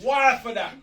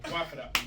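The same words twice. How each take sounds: First: "why for that?" shouted high and loud; shouted catchphrase. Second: "Why for that?" said louder, with a pleading lean; yearning demo. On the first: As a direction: belt out "why for that?" full force. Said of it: "I had to just the point". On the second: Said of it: "you gotta say that you're, you know what I mean, you're yearning". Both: Shown as a demonstration.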